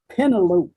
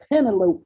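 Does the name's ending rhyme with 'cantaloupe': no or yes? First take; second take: yes; yes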